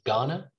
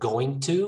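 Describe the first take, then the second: First: The words blend into one reduced word. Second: Both words are said fully and separately. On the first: The speaker calls it right. "we just say gonna" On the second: The speaker calls it wrong. "Instead of going to"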